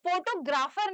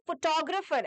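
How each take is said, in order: First: The stress falls on the first syllable. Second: The stress falls on the second syllable. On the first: The speaker calls it wrong. "तो वो photographer नहीं है" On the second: The speaker calls it right. "वो photographer है"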